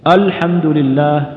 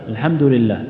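First: The opening hamza is clear and light. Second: The opening hamza is weak or barely heard. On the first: The speaker calls it right. "يقول كذا" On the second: The speaker calls it wrong. "يبدأ باللام أو يبدأ بالهمزة لكن ضعيفة"

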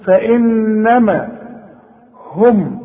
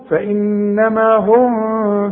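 First: The final meem is pronounced clearly. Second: The final meem is hidden and blurred. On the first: The speaker calls it right. "الميم ساكنة لازم تظهرها" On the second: The speaker calls it wrong. "احسن تخفى منك، وده خطأ"

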